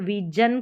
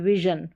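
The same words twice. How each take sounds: First: The middle consonant is a hard 'j' sound. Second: The middle consonant is a soft 'zh' sound. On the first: The speaker calls it wrong. "इसको विजन करके नहीं पढ़ेंगे" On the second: The speaker calls it right. "ये ज का sound ज करके आना चाहिए"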